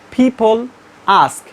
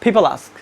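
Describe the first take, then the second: First: The two words are said separately. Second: The two words are linked together smoothly. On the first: The speaker calls it wrong. "Not people ask" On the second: The speaker calls it right. "They actually bridge it"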